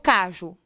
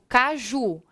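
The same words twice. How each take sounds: First: The stress is on the first syllable. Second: The stress is on the last syllable. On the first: The speaker calls it wrong. "eu não digo caju" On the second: The speaker calls it right. "eu digo caju. A sílaba tônica é a última?"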